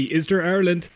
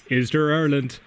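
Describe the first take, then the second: First: Eager, lifted question; hopeful question. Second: Said in the usual way. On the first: Shown as a demonstration. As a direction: ask it with real hope.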